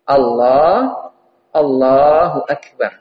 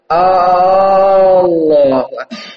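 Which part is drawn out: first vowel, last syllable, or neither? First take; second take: neither; first vowel. First: No vowel is lengthened. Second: The opening vowel is lengthened. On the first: God is the greatest. The speaker calls it right. "lafadznya harus benar" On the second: It asks whether God is the greatest. The speaker calls it wrong. "Jangan dipanjangkan hamzahnya"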